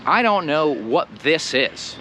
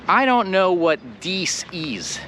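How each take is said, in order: First: Said in the usual way. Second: "dies" with hard d and long ee; mock wrong this. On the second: Shown as a demonstration. Teacher asking which sounds better. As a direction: say the sentence with "dies". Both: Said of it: "which one sounds better".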